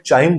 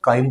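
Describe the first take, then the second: First: The word begins with a 'ch' sound. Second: The word begins with a 'k' sound. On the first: "चाइम बोला जाता है" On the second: "या काइम बोला जाता है"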